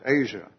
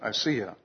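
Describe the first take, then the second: First: The name sounds like the continent Asia. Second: The name has an extra syllable before the end. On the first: The speaker calls it wrong. "I would pronounce it Asia" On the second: The speaker calls it right. "the proper pronunciation is Asiya"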